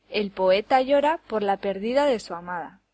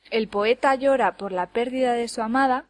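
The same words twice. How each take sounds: First: Pérdida stressed on the middle syllable, per-DI-da; stress on pérdida's middle syllable. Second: Pérdida stressed on its first syllable, PÉR-di-da. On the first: Teacher contrasts two sentences by accent alone, middle syllable of pérdida stressed. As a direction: move the beat in pérdida to its second syllable. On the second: Teacher contrasts two sentences by accent alone, stress on first syllable of pérdida. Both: Shown as a demonstration. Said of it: "cambiando únicamente el acento".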